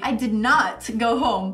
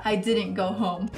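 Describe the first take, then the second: First: "did not" with clear weight on "not"; deliberate, separated "did not"; emphatic NOT. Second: Said in the usual way. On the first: Shown as a demonstration. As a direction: lean firmly on "not". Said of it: "essa ênfase". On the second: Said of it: "fica muito claro essa diferença".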